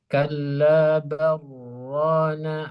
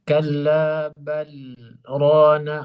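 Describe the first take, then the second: First: The l merges fully into the r. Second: The l is kept, with a brief break. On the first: "dia langsung diidghamkan" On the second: "saktah yang ada di surah Al-Mutaffifin"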